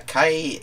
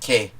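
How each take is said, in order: First: The word ends with an 'eye' sound. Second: The word ends with an 'eh' sound. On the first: This is how the Esperanto word sounds. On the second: This is how the Greek word sounds.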